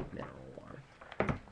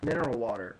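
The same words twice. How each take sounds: First: Breathy whisper of "Mineral water", no voice at all; just breathe "Mineral water" under your breath. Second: Said in the usual way. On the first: Shown as a demonstration. Repeats the product name whispered.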